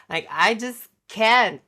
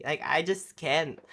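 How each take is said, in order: First: "Like, I just can't" much louder, higher; "can't" thrown out loud in exasperation; exasperated outburst. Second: Said in the usual way. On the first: Real, not acted. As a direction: blurt it out fed up.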